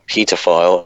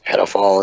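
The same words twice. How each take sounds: First: It is said with a British pronunciation. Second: It is said with an American pronunciation.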